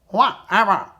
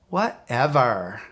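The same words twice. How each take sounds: First: It is said in a quacking duck voice. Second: It is said in a valley girl voice. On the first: "Let's say it like a duck" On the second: "Let's say it like a valley girl"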